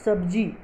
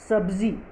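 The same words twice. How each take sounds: First: सब्ज़ी with a hard j; wrong pronunciation. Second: सब्ज़ी with a buzzing z; pronounced with nukta. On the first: Teacher shows the dotless misreading, सब्ज़ी said with j. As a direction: say सब्ज़ी as sabji, no z. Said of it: "जो गलत होगा". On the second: Teacher reads her word list, सब्ज़ी said with z. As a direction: say सब्ज़ी as sabzi. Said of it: "ये dot हटा के". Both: Shown as a demonstration.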